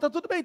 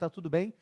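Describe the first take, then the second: First: It is asked quickly and casually, without real interest. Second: It is asked slowly and earnestly, with real concern.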